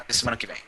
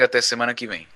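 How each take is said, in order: First: It is spoken in a European Portuguese accent. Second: It is spoken in a Brazilian Portuguese accent.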